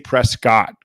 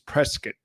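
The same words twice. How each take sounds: First: The name is said the non-local way. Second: The name is said the local way. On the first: The speaker calls it wrong. "I used to say Prescott, guys, and Taryn corrected me" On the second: The speaker calls it right. "That's how they say it"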